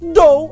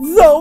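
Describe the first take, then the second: First: It starts with a plain hard 'd' sound. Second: It starts with a voiced 'th', tongue between teeth. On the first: The speaker calls it wrong. "é de normal" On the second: The speaker calls it right. "é dental vaziado, linha nos dentes"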